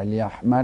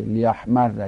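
First: لیحمر ending in "-marri"; kasra ending. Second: لیحمر ending in "-marra"; fatha ending. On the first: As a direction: say لیحمر with a doubled r and final short "i". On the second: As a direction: say لیحمر with a doubled r and final short "a". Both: Shown as a demonstration.

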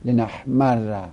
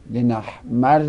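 First: Slow لنحمر, held double r, final "a"; لنحمر drawn out as "li-nahmarra"; fatha ending. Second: لنحمر as "li-nahmarri"; kasra ending. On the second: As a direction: say لنحمر with a doubled r and final "i". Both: Shown as a demonstration.

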